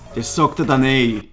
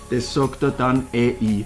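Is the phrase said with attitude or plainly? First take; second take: with attitude; plainly. First: It is said with forceful, assertive attitude. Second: It is said in a plain, neutral way.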